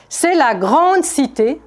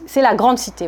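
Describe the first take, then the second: First: "grande" stretched out slowly with a slightly raised pitch; slow stress on grande. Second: Said in the usual way. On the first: Shown as a demonstration. Preacher stressing "grande" to the congregation, slow and weighty. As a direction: lean slowly into the word "grande" to drive it home. Repeats phrase slowly, then plainly.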